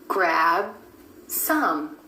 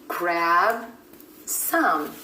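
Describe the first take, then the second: No difference in how they are said.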